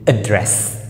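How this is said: It is said with a British accent. "British English"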